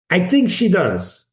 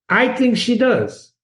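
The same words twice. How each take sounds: First: Said in the usual way. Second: "think" lifted high and stressed; "I think she does" with "think" raised; emphatic, higher. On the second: Shown as a demonstration. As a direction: push up on "think", insist.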